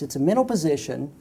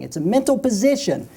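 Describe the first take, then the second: First: Said in the usual way. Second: "mental" pushed high and loud; stress on mental. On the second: Shown as a demonstration. Speaker repeats key point to audience, stressing "mental". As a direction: lean hard on "mental" to drive it home. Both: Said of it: "here's the key thing".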